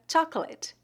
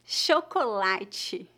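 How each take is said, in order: First: "chocolate" in English, starting with ch, two syllables; English pronunciation. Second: "Chocolate" slowly as sho-ko-LA-chee; Portuguese pronunciation. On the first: Teacher asking for the Portuguese of an English word, English pronunciation. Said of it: "Como se pronuncia a palavra". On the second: Teacher answering how it is said in Portuguese, Portuguese pronunciation. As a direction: say "Chocolate" in Portuguese, opening on sh, drawn out. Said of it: "o dígrafo C H é pronunciado". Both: Shown as a demonstration.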